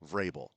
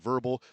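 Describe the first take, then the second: First: The name does not sound like 'verbal'. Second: The name sounds like the word 'verbal'. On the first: The speaker calls it right. "this is how you pronounce the name" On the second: The speaker calls it wrong. "not verbal"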